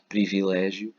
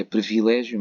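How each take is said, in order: First: It is pronounced the way it is spelled. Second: It has the everyday spoken pronunciation. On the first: This is how it is written. "mas escrevemos" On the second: This is how people say it.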